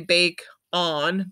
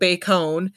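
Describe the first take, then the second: First: The second syllable has a full, clear vowel. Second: The second syllable has a weak schwa vowel. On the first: The speaker calls it wrong. "it should say bake on" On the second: The speaker calls it right. "change your vowel sound to, but bacon"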